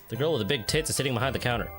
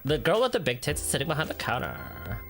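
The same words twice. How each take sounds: First: It is said in his own natural voice. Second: It is said in an imitated female voice.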